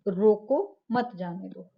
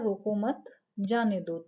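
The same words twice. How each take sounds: First: The pause comes right after 'roko'. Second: The pause comes right after 'mat'. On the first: "रोको के पास comma लगा दिया" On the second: "मत के बाद कॉमा लगा दिया"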